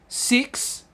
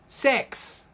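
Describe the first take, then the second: First: The vowel is a short, clear i sound. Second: The vowel sounds close to an e sound. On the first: "I in Australia is it" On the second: "I in New Zealand is eh"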